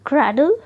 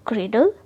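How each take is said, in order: First: क्रैडल with an open "a" in the first syllable. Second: क्रेडल with an "ay" vowel in the first syllable; first syllable of क्रेडल rhymes with "day"; long AY in क्रेडल. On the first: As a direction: say क्रैडल as KRAD-ul. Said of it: "हमने इसे क्रैडल क्यों पढ़ा". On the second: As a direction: say क्रेडल as KRAY-dul. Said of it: "हमें इसे क्रेडल क्यों नहीं पढ़ा?". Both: Shown as a demonstration.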